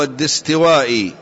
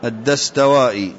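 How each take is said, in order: First: الدستوائي read "ad-distiwaa'i"; الدستوائي with short i after d and t; i-vowels in الدستوائي. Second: الدستوائي read "ad-dastawaa'i"; corrected الدستوائي, short a after d and t; a-vowels in الدستوائي. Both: Real, not acted. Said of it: "والدستوائي".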